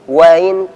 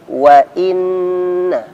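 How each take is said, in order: First: The middle glottal stop is weak and unclear. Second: The middle glottal stop is clear and distinct. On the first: The speaker calls it wrong. "bukan وَإِن وَإِن" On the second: The speaker calls it right. "hamzah ketika di tengah harus jelas"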